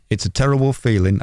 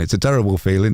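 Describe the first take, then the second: First: It is said in the speaker's plain accent. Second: It is said in a Yorkshire accent.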